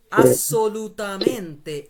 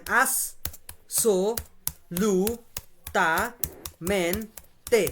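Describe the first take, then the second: First: "assolutamente" slow and loud, syllables run together; joined-up but drawn-out "assolutamente", each syllable clear; slow syllable reading. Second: "assolutamente" very slowly, as-so-lu-ta-men-te with long gaps; syllable by syllable. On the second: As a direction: break "assolutamente" into six isolated syllables. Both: Shown as a demonstration. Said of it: "এটা syllable আকারে পড়বো আমরা".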